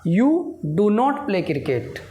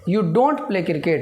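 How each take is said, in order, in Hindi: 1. इसमें पूरा रूप do not है। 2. इसमें संकुचित रूप don't है। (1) "या" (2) "डू नॉट ... इसको बोला जाता है डोंट"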